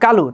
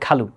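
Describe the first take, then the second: First: The first consonant is unaspirated. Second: The first consonant is aspirated. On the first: "যার নাম কালু" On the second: "Obviously আপনাকে বলতে হবে খালু"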